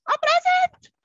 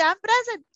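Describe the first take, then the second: First: "I'm present." jumps to a very high squeal; squeaky high present. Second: Bright, lifted call of I'm present; cheerful present call. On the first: Teacher modelling the roll answer for jumping kids, very high squeal. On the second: Teacher showing kids how to answer the roll, lifted and cheery. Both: Shown as a demonstration. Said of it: "You have to jump up and down and say".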